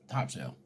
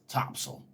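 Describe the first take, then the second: First: It is pronounced as spelled, top sail. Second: It is pronounced the local Southern way. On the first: This is how an outsider says the name. "T O P S A I L" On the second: This is how the locals say the name. "They called it Topsail"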